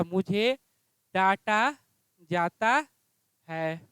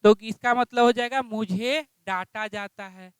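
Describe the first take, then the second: First: Slow dictation. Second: Said in the usual way. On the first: Shown as a demonstration. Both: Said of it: "क्या हो जाएगा?".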